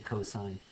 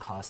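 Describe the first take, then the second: First: It is said in full with three syllables. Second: It is cut short to one syllable. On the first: The speaker calls it right. "you say the whole word when you read this" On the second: The speaker calls it wrong. "don't say sin, cos, tan"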